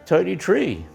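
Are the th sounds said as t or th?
t. Both numbers start with a hard t sound. "they said tidy tree"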